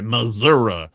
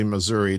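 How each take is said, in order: First: The word is said in a Southern way. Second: The word is said in a standard, non-Southern way. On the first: "we say Missouri" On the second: "we don't say Missouri down there"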